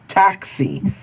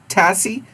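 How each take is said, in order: First: The word has a clear k sound before the s. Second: The word has no k sound before the s. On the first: The speaker calls it right. "Ah, taxi" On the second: The speaker calls it wrong. "we need X"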